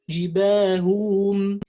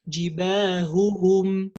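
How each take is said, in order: First: Only one h sound is pronounced in the middle. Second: Both h sounds are pronounced clearly and separately. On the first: The speaker calls it wrong. "we pronounce one of them and we say جباههم, no" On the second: The speaker calls it right. "we have to say jibahuhum"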